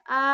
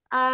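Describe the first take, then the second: No difference in how they are said.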